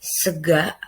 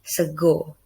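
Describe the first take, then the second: First: Sega with a clear open final a, Ngapak style; Ngapak pronunciation. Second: Sego with a rounded final o, Semarang style; Semarang pronunciation. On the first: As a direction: say sega ending in a, not o. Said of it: "Ngapak accent gonna say". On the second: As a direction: say sego ending in o, not a. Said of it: "Semarang accent gonna say sego". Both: Shown as a demonstration.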